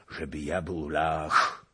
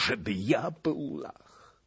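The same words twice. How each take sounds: First: Slow, ja pressed; stress on ja. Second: Slower, higher, ja stressed again. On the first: Bohun protesting he is no Pole, stress on "ja". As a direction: lean on "ja" slowly, offended. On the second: Bohun repeating his protest to the witch, stress on "ja". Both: A narrator's reading. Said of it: "zawołał Bohun".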